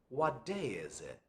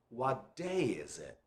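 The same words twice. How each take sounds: No difference in how they are said.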